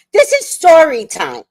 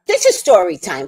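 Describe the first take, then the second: First: Higher and louder, pressing each word; emphatic insistence. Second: Said in the usual way. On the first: Real, not acted. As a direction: insist on it, raising the voice.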